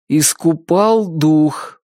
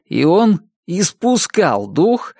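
First: Slowly repeating «Искупал» with stress on «пал», still wrong; slow unsure repeat. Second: Slow «испускал» said correctly now; corrected, still slow. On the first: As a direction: drag out «Искупал дух» uncertainly. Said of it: "повторил Чак". (медленно, неуверенно «Искупал дух») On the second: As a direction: read «испускал дух» carefully, slowly. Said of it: "продолжил". (медленно, правильно «испускал дух») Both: Acted.

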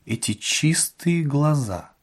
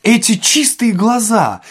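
First: Slow, softer, wondering; hushed musing. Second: High, drawn-out, emphatic recognition; sudden realisation. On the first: Administrator trying to place Ostap's eyes, hushed. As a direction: linger softly as if searching memory. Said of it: "притихший ... продолжал вспоминать". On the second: Administrator finally remembering Ostap's eyes, emphatic. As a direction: ring it out as memory strikes. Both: A narrator's reading.

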